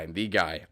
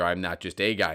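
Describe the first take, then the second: First: "the" leaned on to set it against "a"; stress on the. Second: Said in the usual way. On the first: Real, not acted. Podcaster claiming the audio drama spotlight, stressing "the". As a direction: hit "the" in "I'm the guy" with a falling tone.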